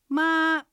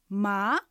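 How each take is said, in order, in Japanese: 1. 音は高いまま平らです。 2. 音は中くらいから高く上がります。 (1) "平板です。高く音を伸ばします。" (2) "え、とこう聞き返すように上がる音です。"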